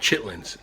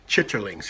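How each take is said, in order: First: The word is shortened to two syllables. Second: The word is said with three full syllables. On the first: "most people call them chitlins" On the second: "I pronounced it the right way"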